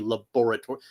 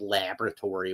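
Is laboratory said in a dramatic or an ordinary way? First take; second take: dramatic; ordinary. First: The word is said in a dramatic, unusual way. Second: The word is said in an ordinary, everyday way. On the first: It fits the classic mad-scientist setting. The speaker calls it right. "it's Frankenstein, so you have to say laboratory" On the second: It is the everyday way of saying it. The speaker calls it wrong. "You can't just say laboratory"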